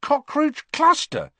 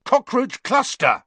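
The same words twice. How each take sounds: First: High, slow, wondering question; can't believe "Cockroach cluster" worked; amazed. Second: High, loud shouted guess; angry yell. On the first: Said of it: "he said, amazed". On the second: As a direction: hurl the password at the gargoyle. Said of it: "he yelled angrily". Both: A narrator's reading.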